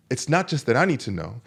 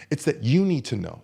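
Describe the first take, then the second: First: "I" picked out in contrast; stress on I. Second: "you" picked out as the answer; stress on you. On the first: Coach explaining who needs to know, stress on "I". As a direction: lean on "I", leaving more to come. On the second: Coach handing responsibility to the listener, stress on "you". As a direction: land the contrast on "you". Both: Real, not acted.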